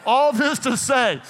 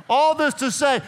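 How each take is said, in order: Both takes have the same delivery.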